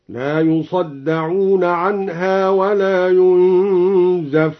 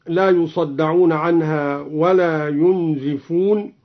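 First: ينزفون recited as yunzafun, a on the zay, slow; passive reading. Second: Said in the usual way. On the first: Shown as a demonstration. Teacher demonstrating yunzafun, slow. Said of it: "بفتح الزاي مبنيا للمجهول". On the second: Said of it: "هكذا".

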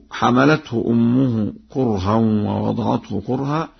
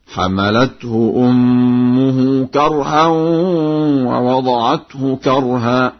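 First: Said in the usual way. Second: Slow chant, "كرها" pronounced karha with an a; sung, higher drawn-out recitation, both "كرها" said karha; sung, fatha on kaf. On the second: Shown as a demonstration. Teacher demonstrates Warsh's kaf vowel, slow chanted karha for "كرها". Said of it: "بفتح الكاف هكذا".

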